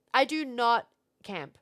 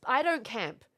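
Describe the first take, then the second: First: "I do not camp" slow, each word spaced, NOT leaned on; a flat denial with "not" hit hard; stress on NOT. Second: Said in the usual way. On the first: Real, not acted. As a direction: spell it out firmly, "do not camp".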